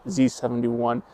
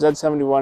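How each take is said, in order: First: The letter is said the American way, zee. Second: The letter is said the Canadian way, zed.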